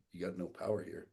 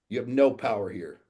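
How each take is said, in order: First: Softer, understated firm reply; calm rebuttal. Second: Loud, forceful challenge; imitated yelling. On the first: Retold or imitated. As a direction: quietly deny him any authority. His own calm reply to the yeller. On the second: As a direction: retell a defiant yell. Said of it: "yells in my face".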